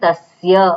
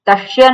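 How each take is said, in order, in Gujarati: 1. s અવાજ જીભ દાંતને અડીને બને છે. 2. s અવાજ વધુ પાછળ બને છે, દંત્ય નહીં. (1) "દંત્ય સ બોલવો હોય તો જીભ આપણી દાંતને અડવી જોઈએ" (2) "તસ્ય નથી"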